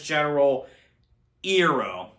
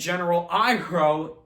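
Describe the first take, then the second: First: It uses the movie's changed pronunciation. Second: It uses the original cartoon pronunciation. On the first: The speaker calls it wrong. "he gets his name pronounced as General Iroh" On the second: The speaker calls it right. "And General Iroh"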